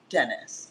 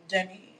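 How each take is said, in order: First: The name ends with a clear s sound. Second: The name ends in a vowel, no final s. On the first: The speaker calls it wrong. "not Dennis" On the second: The speaker calls it right. "His name is Denny"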